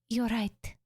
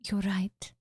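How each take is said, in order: First: It is said in a higher voice. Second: It is said in a lower voice.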